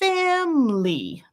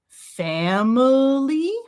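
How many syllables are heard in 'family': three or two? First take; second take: two; three. First: It is said with two syllables. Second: It is said with three syllables. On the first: "if I take that schwa away, then I've got family, two syllables" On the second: "da da da"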